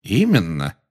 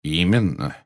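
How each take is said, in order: First: Mildly cheery confirmation; cheerful. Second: Mildly obliging confirmation; courteous. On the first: Dumbledore owns up to the plot, cheerful. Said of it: "весело подтвердил Дамблдор". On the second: Dumbledore confirms to the startled minister, courteous. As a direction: confirm it politely, without any push. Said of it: "любезно подтвердил Дамблдор". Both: A narrator's reading.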